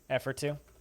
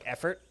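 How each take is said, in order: First: The phrase is said at a normal, unhurried pace. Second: The phrase is run together quickly into one word.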